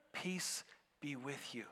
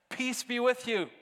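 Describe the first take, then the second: First: Said in the usual way. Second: "Peace be with you" pitched high and loud; emphatic. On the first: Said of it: "we hear Jesus say". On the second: Shown as a demonstration. Preacher showing the exclamation mark, emphatic on "Peace be with you". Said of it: "it's emphatic".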